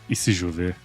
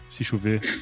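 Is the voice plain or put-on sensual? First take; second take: sensual; plain. First: It is said in a put-on sensual voice. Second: It is said in a plain, normal voice.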